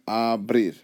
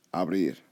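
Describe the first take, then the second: First: "abrir" opened out as a and brir; divided into syllables. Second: Said in the usual way. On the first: Shown as a demonstration. Teacher opening up the word, "abrir" syllable by syllable. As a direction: stretch and separate the two syllables of "abrir". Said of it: "you open it". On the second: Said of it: "they end with a consonant".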